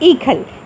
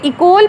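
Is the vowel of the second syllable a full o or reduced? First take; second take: reduced; full o. First: The second syllable has a short reduced vowel. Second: The second syllable has a full o vowel. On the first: The speaker calls it right. "लेकिन इसकी सही प्रोनाउंसिएशन है इकल" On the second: The speaker calls it wrong. "ये इकोल भी आप इसको पढ़ सकते हैं"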